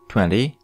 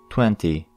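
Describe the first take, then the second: First: It is said in an American English accent. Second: It is said in a British English accent. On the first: "American English" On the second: "British English"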